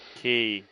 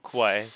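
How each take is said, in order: First: The word ends in an 'ee' vowel sound. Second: The word ends in an 'ay' vowel sound. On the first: The speaker calls it right. "That's pronounced as key" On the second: The speaker calls it wrong. "not quay"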